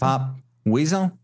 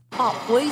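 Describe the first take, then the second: First: Put-on old Hollywood transatlantic accent; glamorous old Hollywood star voice. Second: Imitating a Boston accent; old Boston radio voice. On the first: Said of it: "in that transatlantic accent". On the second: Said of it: "he's Bostonian".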